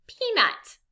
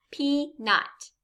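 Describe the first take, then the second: First: Said in the usual way. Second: PEANUT as pea, pause, nut; two separate beats in PEANUT; syllable by syllable. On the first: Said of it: "It's a picture of a". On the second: Shown as a demonstration. Teacher gives learners a picture word, PEANUT syllable by syllable. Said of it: "say this word syllable by syllable".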